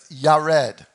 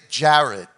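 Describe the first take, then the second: First: The name begins with a Y sound. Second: The name begins with a J sound. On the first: This is the original form of the name. The speaker calls it right. "but it's Yared" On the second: This is the familiar English form of the name. The speaker calls it wrong. "or we would say Jared"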